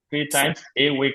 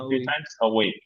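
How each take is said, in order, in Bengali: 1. 'a' একটি পূর্ণ 'ay' স্বরধ্বনি, আলাদাভাবে বলতে হয়। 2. 'a' একটি হালকা শোয়া, মসৃণভাবে যুক্ত করে বলতে হয়। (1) "থ্রি টাইমস এ উইক না" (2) "একসাথে বলে ফেলবেন, আ হালকা শোয়া সাউন্ড রাখি"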